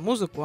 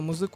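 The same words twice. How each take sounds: First: The stress falls in the familiar modern place. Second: The stress falls in an unusual shifted place. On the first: This is the current standard form. "мы-то знаем музыку" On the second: This is an old eighteenth-century form. "а музыку мы как-то не знаем"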